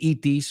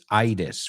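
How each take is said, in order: First: It is pronounced with Spanish sounds. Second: It is pronounced with English sounds. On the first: "when you say itis" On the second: "for us, it's itis"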